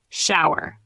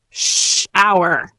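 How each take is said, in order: First: Said in the usual way. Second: "Shower" with a long drawn-out "Sh"; slower demo. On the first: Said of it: "Again, a little slower". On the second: Shown as a demonstration. Teacher models the word for learners, a little slower. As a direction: stretch "Shower" out, opening sound held. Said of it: "a little slower".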